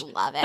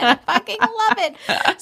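First: Said in the usual way. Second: High, slow squeal of love; squealing delight. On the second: Real, not acted. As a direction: stretch it out, thrilled and gushing. Gushing over the book.

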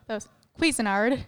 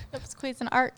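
First: Cuisinart said as kwiz-in-ard, with a D at the end; the old wrong way: kwiz-in-ard. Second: Cuisinart said as kwiz-in-art, with the final D dropped; corrected way. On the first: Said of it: "I just knew it of hearing it". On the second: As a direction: say it kwiz-in-art, ending on a plain T. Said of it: "There's no D". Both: Shown as a demonstration.

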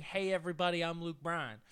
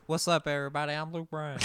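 First: Soft, lightly voiced country greeting. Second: A variant country star hello; change up the greeting; offering a new take on the hello. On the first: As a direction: mumble the catchphrase. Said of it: "I can't stop saying". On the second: Retold or imitated. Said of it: "change it up for you".

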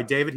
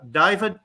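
First: Said in the usual way. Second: Southern "David", first vowel widened to "Dah-ee"; Ray Patterson, Southern accent. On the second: Retold or imitated. Director calling on a student, Southern accent on "David". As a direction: say "David" higher, as "DAH-ee-vid" in a Tennessee accent. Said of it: "Southern accent".

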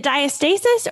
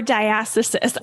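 First: "diastasis" as die-uh-STAY-sis; long-A pronunciation. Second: "diastasis" as die-ASS-uh-sis; short-A pronunciation. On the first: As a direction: offer "diastasis" with STAY stressed, as one option. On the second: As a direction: offer "diastasis" with ASS stressed, as the other option. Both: Shown as a demonstration. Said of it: "the right pronunciation is".

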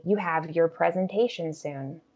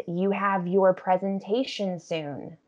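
First: "your" quick and weak, like yer; fluent sentence with "your" shrunk to yer; reduced "your". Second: "your" fully pronounced, as in yore; slow, careful sentence with an unreduced "your"; full "your". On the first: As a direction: slip fast through "your" to "presentation". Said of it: "It becomes very fast and reduced". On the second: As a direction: give "your" its whole vowel. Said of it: "I'm not going to say your with its full pronunciation". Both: Shown as a demonstration.

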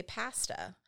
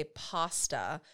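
First: "pasta" with a short a, as in cat; British-style "pasta", flat a as in pat. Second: "pasta" with an open ah, PAH-stuh; posh-sounding "pasta", first vowel as in father; American pasta. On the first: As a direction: say "pasta" as PASS-tuh. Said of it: "And they say pasta". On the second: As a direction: say "pasta" with a long ah in the first syllable. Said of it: "would be a very posh thing to say". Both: Shown as a demonstration.

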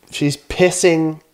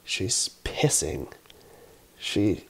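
First: Higher and slow, leaning hard on "pissing"; emphatic repeat. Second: Dropped low and soft, slow, a stunned hush; hushed reveal. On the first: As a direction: hit "pissing" high and slow, hammering it home. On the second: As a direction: let it fall low and slow, like you can't believe it. Shocked reveal of toddler peeing. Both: Real, not acted.

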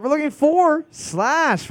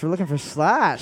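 First: Slow, high host reveal; drawn-out announcement. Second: Said in the usual way. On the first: Acted. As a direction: stretch out the reveal.

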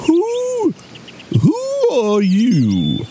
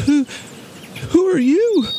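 First: High, drawn-out owl hoot on who; slow, high-pitched owl voice; hooting old owl. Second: High, timid bear voice; small, high-pitched nervous question; frightened little bear. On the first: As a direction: stretch the question like a hooting owl. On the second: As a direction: ask as a scared little bear. Bear meets a fierce giant. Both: A narrator's reading.

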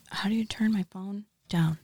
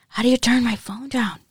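First: Whisper. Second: Louder. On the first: Phone noise during ASMR. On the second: Repeats louder. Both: Real, not acted.

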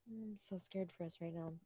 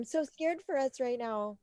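First: Said in the usual way. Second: Overacted fearful line; dramatic quote. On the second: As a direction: play it big and theatrical. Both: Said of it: "So dramatic".

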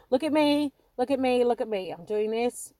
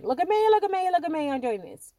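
First: Mock show-off, louder and bright; attention-seeking kid. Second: Much higher, loud mock "look at me"; louder show-off kid. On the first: Young her on stage craving attention, mock show-off. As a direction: play the child begging for the spotlight. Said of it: "It's like". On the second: Young her demanding the limelight, loud hammed-up show-off. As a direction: crank the spotlight-hungry child right up. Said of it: "you know, again".

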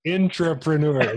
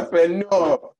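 First: Intrapreneur said slowly with intra, not entre; intrapreneur pronunciation. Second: Entrepreneur said high and loud in a Nigerian accent; hammed-up Nigerian accent on Entrepreneur. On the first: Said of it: "pronouncing it differently". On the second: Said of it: "That's my Nigerian accent". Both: Shown as a demonstration.

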